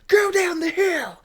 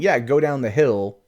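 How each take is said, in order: First: It is shouted with force and emotion. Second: It is said calmly, with no inflection.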